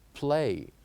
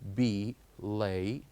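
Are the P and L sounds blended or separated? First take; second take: blended; separated. First: The P and L blend into one sound. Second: A vowel separates the P from the L. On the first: The speaker calls it right. "it must sound like one unit" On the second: The speaker calls it wrong. "not be lay"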